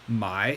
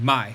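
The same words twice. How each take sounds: First: The pitch dips low and then rises. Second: The pitch falls sharply from high to low. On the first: It means to buy. "my third tone means buy" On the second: It means to sell. "my fourth tone means to sell"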